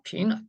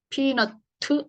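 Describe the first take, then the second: First: The word ends on a clipped final consonant. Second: The word ends with an added final vowel. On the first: The speaker calls it right. "피넛이죠" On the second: The speaker calls it wrong. "피너트 이렇게 안 하죠"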